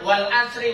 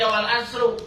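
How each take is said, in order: First: The word ends with an i vowel. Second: The word ends with a u vowel. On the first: The speaker calls it right. "dibacanya wal asri majrur" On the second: The speaker calls it wrong. "enggak boleh dibaca wal asru doma"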